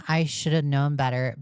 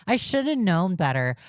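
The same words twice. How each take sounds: First: Said in the usual way. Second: Higher mocking whine; mock whiny quote. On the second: Streamer mocking excuses from grown adults, whiny. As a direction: sneer the excuse back. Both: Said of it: "sick and tired of hearing the excuse".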